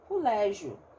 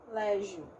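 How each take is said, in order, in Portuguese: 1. A primeira vogal é pronunciada como U. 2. A primeira vogal é um som de O aberto. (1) "tem gente que fala cu, lé, colégio" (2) "Com um O mais aberto aqui"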